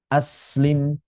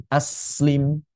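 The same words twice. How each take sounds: No difference in how they are said.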